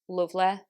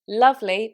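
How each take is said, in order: First: The first vowel is a fuller, rounded u. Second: The first vowel is an open uh sound. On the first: "with a Manchester accent... replaced by an even slightly fuller version of u" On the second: "in modern R P British English, we have two vowels for the uh sound"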